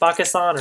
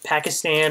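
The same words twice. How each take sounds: First: It is said with a native Urdu-style pronunciation. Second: It is said with the common English pronunciation.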